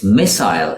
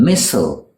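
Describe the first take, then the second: First: "missile" said MISS-ile; British "missile" with a long I; British pronunciation. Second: "missile" said MISS-ul; American "missile", rhyming with whistle; American pronunciation. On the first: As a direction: end "missile" like aisle. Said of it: "It's missile in the U K". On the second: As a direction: shorten the end of "missile". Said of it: "in the U S". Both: Shown as a demonstration.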